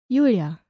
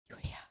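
First: The name is said in a normal voice. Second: The name is whispered.

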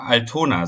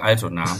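First: The stress is on the second syllable. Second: The stress is on the first syllable. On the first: The speaker calls it wrong. "ich wollte immer Altona sagen" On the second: The speaker calls it right. "statt Altona"

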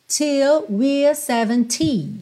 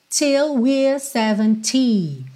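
Both takes have the same delivery.

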